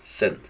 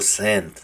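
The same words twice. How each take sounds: First: The vowel is a short, clipped E. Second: The vowel is drawn out and long. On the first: The speaker calls it right. "digo send" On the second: The speaker calls it wrong. "Yo no digo send"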